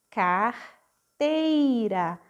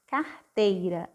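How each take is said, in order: First: "Carteira" drawn out extremely slowly; very slow sounded-out word. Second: Said in the usual way. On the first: Shown as a demonstration. Teacher modelling "Carteira" very slowly for children. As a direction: stretch "Carteira" syllable by syllable.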